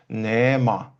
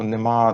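First: The word has a tonal melodic accent. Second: The word has a plain stress accent. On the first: This is the way speakers of another language say it. "вони кажуть нема" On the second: This is the standard way of speaking. "якщо ми кажемо"

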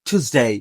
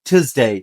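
First: It is said in an American accent. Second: The same.

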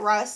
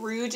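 First: The name ends with a plain s sound. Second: The name ends with a soft zh sound. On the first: "I've always said Russ" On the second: "Some people I've heard say it Rouge, and there's no G on it"

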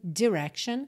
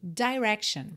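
First: The first vowel is a closed i sound. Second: The first vowel is an open i sound. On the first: "com o i mais fechadinho" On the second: "com o i mais aberto"

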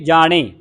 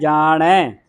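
First: The word ends in a closed 'e' vowel. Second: The word ends in an open 'ai' vowel. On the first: The speaker calls it wrong. "ਇੱਕ ਲਾਂ ਦੇ ਨਾਲ ਜਾਣੇ ਬਣਦਾ ਹੈ" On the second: The speaker calls it right. "ਪਰ ਇੱਥੇ ਦੋ ਲੱਗੀਆਂ"

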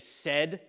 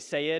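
First: The vowel is short, like in 'set'. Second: The vowel is long, like in 'say'. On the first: The speaker calls it right. "Just like you would say said" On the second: The speaker calls it wrong. "you don't say sayed unless you're from Alabama"

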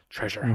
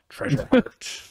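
First: It is said in a normal accent. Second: It is said in a pirate accent.

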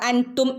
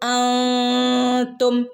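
First: The n sound is pronounced clearly and fully. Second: The n sound is hidden in a nasal hum. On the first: The speaker calls it wrong. "നൂൻ്റെ മുകളിൽ ഇവിടെ സുക്കൂനില്ല, അപ്പം നമ്മളവിടെ അൻതും എന്ന് ഓതില്ല" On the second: The speaker calls it right. "നൂനെ മറച്ചു പിടിച്ച് മണിച്ചോതും"

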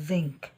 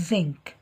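No difference in how they are said.

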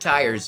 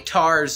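First: The vowel is a full glide, standard style. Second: The vowel is flattened, West Virginia style.

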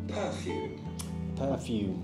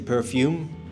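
First: The stress is on the first syllable. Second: The stress is on the second syllable. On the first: The speaker calls it right. "First stress" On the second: The speaker calls it wrong. "You sound like the second stress"

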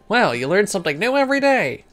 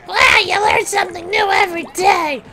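First: It is said in an old Octarian voice. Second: It is said in a Toad voice.

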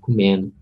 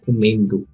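First: The d sound in the word is dropped. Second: The d sound in the word is pronounced. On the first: "senão comendo. Tira um D" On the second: "as pessoas às vezes não falam comendo"

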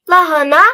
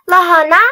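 The two takes are said the same way.

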